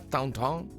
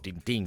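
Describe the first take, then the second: First: The name has French nasal vowels. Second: The name has Spanish vowels, stress at the end. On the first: "porque la pronunciación sería Tonton" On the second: "como eh, vamos a decirlo bien, en España"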